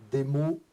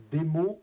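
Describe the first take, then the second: No difference in how they are said.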